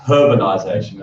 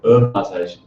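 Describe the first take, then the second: First: It is said the non-American way. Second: It is said the American way. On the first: The speaker calls it right. "But we're not in the U S, thank God, because it's urbanization" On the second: The speaker calls it wrong. "so you start talking about urbanization"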